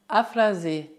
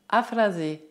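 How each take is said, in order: No difference in how they are said.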